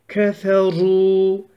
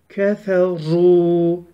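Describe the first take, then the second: Both takes have the same delivery.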